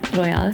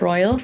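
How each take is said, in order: First: The name is pronounced the German way. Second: The name is pronounced the English way.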